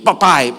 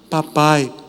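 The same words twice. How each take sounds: First: It sounds rude and demanding. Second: It sounds gentle and pleading.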